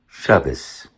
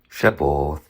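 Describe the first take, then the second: First: It is said in a Yiddish pronunciation. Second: It is said in an Ancient Hebrew pronunciation. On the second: "Ancient Hebrew?"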